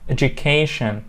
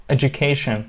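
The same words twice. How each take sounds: No difference in how they are said.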